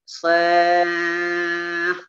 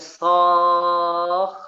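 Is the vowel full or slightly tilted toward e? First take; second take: tilted; full. First: The vowel is slightly tilted toward e. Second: The vowel is a full, rounded o. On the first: The speaker calls it right. "dibaca imalah sedikit" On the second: The speaker calls it wrong. "Tidak bacanya soh"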